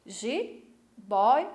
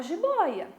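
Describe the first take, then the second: First: "Jiboia" broken into ji, boi, a with pauses; syllable by syllable. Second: Said in the usual way. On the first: Shown as a demonstration. Teacher splitting a word for the class, "Jiboia" syllable by syllable. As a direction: say "Jiboia" slowly, one separate syllable at a time. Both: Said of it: "se eu for separar em sílabas".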